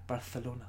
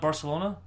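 First: The c is said as a th sound. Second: The c is said as an s sound. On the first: This is how speakers from Spain say it. "they say Barcelona" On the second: This is how Mexican Spanish speakers say it. "Not Barcelona"

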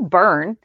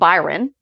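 First: The name is said as one syllable. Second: The name is said as two syllables. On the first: The speaker calls it right. "It's Neil Byrne" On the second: The speaker calls it wrong. "I kept saying Byron"

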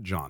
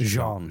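First: The name is said like English 'John'. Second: The name is said like French 'Jean'. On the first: The speaker calls it wrong. "It's not John" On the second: The speaker calls it right. "It's Jean"

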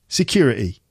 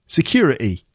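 Both takes have the same delivery.

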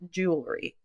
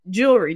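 First: The word is said with three syllables. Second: The word is said with two syllables. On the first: "then it's going to come out three" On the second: "You're saying it two syllables now"

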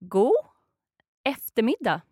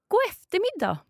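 First: It is said slowly. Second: It is said at normal speed.

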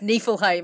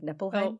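First: The middle consonant is an f sound. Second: The middle consonant is a p sound. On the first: The speaker calls it right. "And he's like, it's Niflheim" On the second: The speaker calls it wrong. "I mispronounced Niflheim last episode because Ewan was laughing because I said it like Nippleheim"

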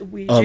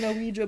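First: The word begins with a 'w' sound. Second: The word begins with a separate 'oh' vowel. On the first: "It's pronounced Ouija" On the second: "He pronounces the O"

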